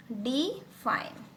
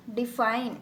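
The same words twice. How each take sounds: First: "define" slowly broken as डि, pause, fine; "define" in two slow, detached syllables; split into syllables. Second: Said in the usual way. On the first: Shown as a demonstration. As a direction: separate "define" into two parts, डि then fine. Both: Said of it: "अब इस word को अगर मैं अलग-अलग करती हूँ".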